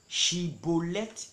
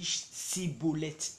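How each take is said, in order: First: The word begins with an sh sound. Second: The word begins with an s sound. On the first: The speaker is from the group asking the question. The speaker calls it right. "on lui dit de dire Shi, Shibolet" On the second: The speaker gives himself away as an outsider. The speaker calls it wrong. "lui il dit Sibolet, car il ne pouvait pas bien prononcer"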